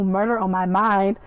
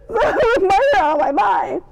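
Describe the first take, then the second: First: Said in the usual way. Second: High, loud, drawn-out squeal; excited squeal. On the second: Acted. Fan reacting to Armand getting up, excited squeal. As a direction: shriek it slowly, overwhelmed with glee. Delighted squealed repeat of the line.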